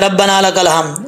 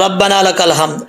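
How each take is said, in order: The two takes are said the same way.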